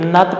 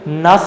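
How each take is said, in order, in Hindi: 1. इस अक्षर का अंत t ध्वनि से होता है। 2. इस अक्षर का अंत s ध्वनि से होता है। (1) "यहाँ पे नत पढ़ा गया" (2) "यहाँ पे नस नहीं पढ़ा गया"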